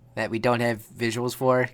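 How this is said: The voice is flat and monotone. "I was saying that in a flat voice"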